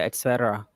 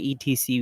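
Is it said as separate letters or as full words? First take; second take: full words; letters. First: It is spoken as the full words et cetera. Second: It is spoken as three separate letter names. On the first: The speaker calls it right. "We say et cetera" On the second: The speaker calls it wrong. "we don't say E T C"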